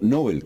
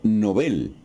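First: The stress is on the first syllable. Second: The stress is on the second syllable. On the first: "con acento grave en la O" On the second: "con acento agudo en la E"

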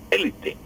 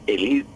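First: The stress falls on the first syllable. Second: The stress falls on a later syllable. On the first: This is the rooted everyday Spanish usage. The speaker calls it wrong. "y no élite" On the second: This keeps the original French pronunciation. The speaker calls it right. "tenemos que decir élite"

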